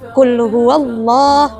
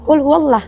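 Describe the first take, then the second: First: The 'l' in Allah is heavy and dark. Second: The 'l' in Allah is light and thin. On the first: The speaker calls it right. "dibaca tafkhim atau tebal" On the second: The speaker calls it wrong.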